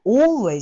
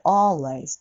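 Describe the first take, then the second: First: Always said with a flat a, the wrong way. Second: Always with an o leaning toward a; always, the open o sound; correct always. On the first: Teacher showing the wrong always to students. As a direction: always with a Japanese a vowel. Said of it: "alwaysじゃなくて". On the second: Teacher modeling the right always for students. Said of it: "あっぽいおの音ね". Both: Shown as a demonstration.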